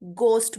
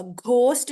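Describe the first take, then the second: First: घोस्ट said as gost, plain hard g; silent h. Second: घोस्ट with a breath of h after g; wrong pronunciation. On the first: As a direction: drop the h in घोस्ट. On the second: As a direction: sound the h in घोस्ट. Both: Shown as a demonstration. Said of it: "ये एच silent होगा".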